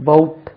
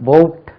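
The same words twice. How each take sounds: No difference in how they are said.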